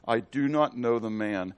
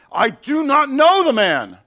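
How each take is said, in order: First: Said in the usual way. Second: High, loud and slow, every word pushed hard; emphatic denial. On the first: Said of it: "First time's just a plain denial". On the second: Retold or imitated. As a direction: deny it with force, dragging it out. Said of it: "More emphatic".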